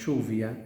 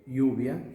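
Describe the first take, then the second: First: It is said in the porteño Buenos Aires accent. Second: It is said in a non-porteño accent.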